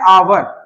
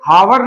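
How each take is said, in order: First: The word begins with a vowel sound. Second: The word begins with an h sound. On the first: The speaker calls it right. "तो आ से start हो रहा है" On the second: The speaker calls it wrong. "ये हावर नहीं है"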